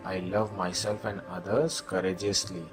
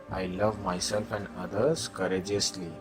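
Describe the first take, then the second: No difference in how they are said.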